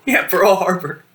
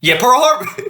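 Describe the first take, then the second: First: Slow laughing repeat. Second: High laughing echo; amused. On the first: Friend repeating the joke while laughing, slow laughing repeat. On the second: Friend echoing his friend's Pearl Harbor joke, amused high echo. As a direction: repeat it through a laugh, pitched up. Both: Real, not acted.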